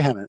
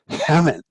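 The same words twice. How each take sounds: First: The name is said plainly without extra breath. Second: The name is said with a breathy exhale. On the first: The speaker calls it wrong. "don't say Hemant" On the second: The speaker calls it right. "you have to like exhale while you say it to get it right"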